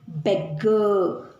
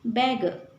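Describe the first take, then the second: First: The middle consonant is doubled and held long. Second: The middle consonant is single and short. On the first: The speaker calls it wrong. "We don't read it as" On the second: The speaker calls it right. "No, no"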